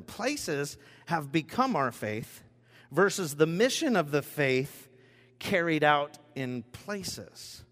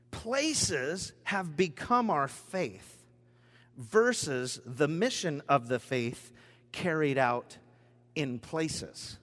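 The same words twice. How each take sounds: First: A second slow, stressed reading; slow reread. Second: Each phrase slowed and weighted; slow emphatic reading. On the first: Preacher rereading the key line, slow and stressed. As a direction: lean on "mission" the second time. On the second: Preacher reading his key line to the congregation, slow and deliberate. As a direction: read it slowly for weight. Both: Shown as a demonstration. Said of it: "I'll read that one more time".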